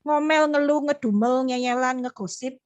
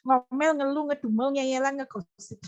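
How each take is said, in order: First: Said in the usual way. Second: Amused repetition. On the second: Real, not acted. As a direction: list breaking into laughter. Repeats list, breaking into laughter.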